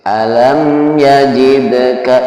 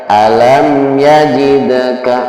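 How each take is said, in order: No difference in how they are said.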